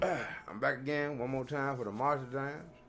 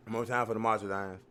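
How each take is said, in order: First: Talking around a cigar; words mumbled past a cigar; cigar in mouth. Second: Said in the usual way. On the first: Real, not acted. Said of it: "I had my cigar in my mouth". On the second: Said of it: "Forgive me, I had my cigar in my mouth".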